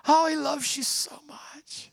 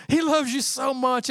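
First: Breathy whisper of the line; tender whisper. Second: Said in the usual way. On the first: Real, not acted. Preacher whispering God's love to the congregation. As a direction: whisper it like a secret.

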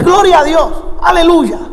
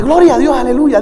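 First: Higher-pitched, ringing church exclamation; reenacted praise shout. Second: Milder reenacted praise. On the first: Visiting preacher greeting a church on entering, exclaimed praise. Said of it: "¿por qué grita?". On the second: Preacher insisting he had not shouted, milder praise exclamation. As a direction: praise exclamation toned down, falling away. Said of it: "yo no había gritado, yo simplemente".

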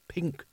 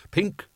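First: Very soft, faraway echo of the word; trailing musing. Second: Higher, lightly remembered word; musing aloud. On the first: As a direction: repeat it softly, lost in memory. Fading repeat, lost in memory. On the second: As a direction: say it aloud as a memory surfaces. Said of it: "he said out loud". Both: A narrator's reading.

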